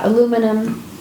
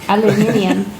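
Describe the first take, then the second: First: It is said the plain American way. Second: It is said the Australian way, aluminium.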